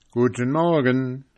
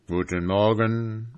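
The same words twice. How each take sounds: First: A bright greeting called out to the gate. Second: Said in the usual way. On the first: Acted. Travellers calling good morning to the sentry, called out. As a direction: call it cheerfully to the guard. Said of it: "riefen sie der Schildwache". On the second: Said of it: "antwortete diese".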